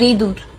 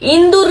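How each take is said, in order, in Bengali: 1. d-এর আগে শুধু একটি অনুনাসিক স্বরধ্বনি আসে। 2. d-এর আগে পূর্ণ n ধ্বনি আসে। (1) "ইঁদুর হইলে শুদ্ধ ভাষা" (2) "ইন্দুর তোমাকে বরিশালের ভাষা"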